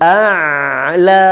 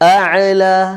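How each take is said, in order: First: The ayn sound is held and drawn out. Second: The ayn sound is released with a bounce. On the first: The speaker calls it right. "இப்போ ஆ என்ன நான் இழுத்து இழுத்து பிடிச்சிக்கிறேன்" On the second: The speaker calls it wrong. "அஅலா விட்டுட்டேன்"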